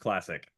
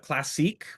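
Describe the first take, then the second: First: It ends with a short 'ick' sound. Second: It ends with a long 'eek' sound. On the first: It is the company's own choice. "we tend to call ourselves classic" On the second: It sounds fancier. "a lot of people also call it uh, classique. You know, it's a little fancier"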